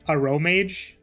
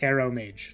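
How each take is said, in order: First: The name begins with a short 'a' and 'row'. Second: The name begins with the word 'arrow'. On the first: "I know it's, like, a Row Mage" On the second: "it kind of sounds like Arrow Mage"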